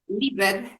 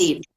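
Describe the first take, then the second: First: The ending is said as a separate 'ed' syllable. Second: The ending is a plain 'd' sound, no syllable. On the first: The speaker calls it wrong. "it's never pronounced ed because this is a typical mistake" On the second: The speaker calls it right. "the pronunciation is lived with a D"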